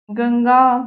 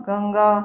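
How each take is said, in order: First: गंगा loud and drawn out; deliberately wrong गंगा, stretched and louder; mispronounced गंगा. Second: Said in the usual way. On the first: Shown as a demonstration. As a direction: give गंगा as the loud, lengthened faulty example. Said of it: "अशुद्ध वर्तनी". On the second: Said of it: "ये सारी शुद्ध है".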